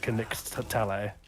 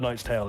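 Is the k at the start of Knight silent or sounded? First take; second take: sounded; silent. First: Knight is said with a sounded k and ch. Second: Knight is said the modern way, silent k. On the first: This is the Middle English pronunciation. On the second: This is the modern pronunciation.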